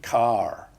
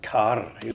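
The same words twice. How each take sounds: First: The final R is clearly pronounced. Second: The final R is rolled. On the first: This is how it was said in earlier times. "in those days, it would have been heart and car" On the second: This is another variant from earlier times. "even a trill"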